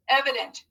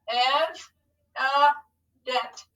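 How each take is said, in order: First: Said in the usual way. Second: EV, UH, DENT with clear gaps; broken into syllables. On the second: Shown as a demonstration. Teacher proofs a spelled word with pupils, syllable by syllable. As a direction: say Ev, uh, dent one beat at a time. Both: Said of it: "Let's scoop it to proof it".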